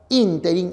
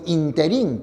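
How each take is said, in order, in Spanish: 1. La sílaba tónica es la primera. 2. La sílaba tónica no es la primera. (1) "la palabra ínterin es esdrújula" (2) "que algunos emplean es impropia"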